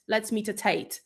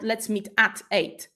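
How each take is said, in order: First: "at" reduced to a quick schwa; weak at. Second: "at" said full and stressed. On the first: Teacher modelling the natural weak form. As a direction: let "at" slip by weakly. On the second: Teacher showing the wrong stressed "at". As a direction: lean on "at". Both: Shown as a demonstration.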